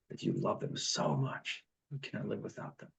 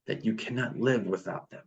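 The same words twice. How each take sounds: First: Half-whispered, fading to almost nothing; hushed repeat. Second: Said in the usual way. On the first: Shown as a demonstration. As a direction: drop to a soft whisper to drive it home.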